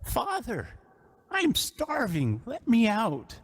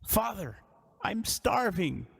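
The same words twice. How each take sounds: First: Higher, slow, strained cry of a starving son; a trapped son begging from beneath the floor; desperate young man's plea, pitched up. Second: Lightly voiced young man calling up, slow; a hint of a starving son pleading from below; drawn-out starving plea; young man crying out. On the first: Acted. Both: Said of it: "you hear a young man's voice cry out".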